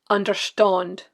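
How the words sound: The stressed vowel is made further back.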